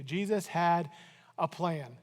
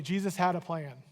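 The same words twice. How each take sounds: First: Jesus HAD a plan, with a falling stress on "had"; a plan he already had, with "had" leaned on and falling. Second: "had" stressed and falling, said together; stress on had, with the congregation. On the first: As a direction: lean hard on "had" and let it fall. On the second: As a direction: lead the room and lean on "had". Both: Shown as a demonstration. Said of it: "Say that with me".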